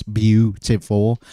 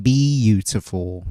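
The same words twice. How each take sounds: First: "beautiful" said as three syllables, BYOO-ti-ful; "beautiful" in three quick syllables. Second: "beautiful" stretched to four syllables, bee-YOO-tuh-ful; "beautiful" drawn out as bee-YOO-tuh-ful. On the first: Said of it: "the way at least I pronounce beautiful is, like, three syllables". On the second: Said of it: "if we pronounce it beautiful". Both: Shown as a demonstration.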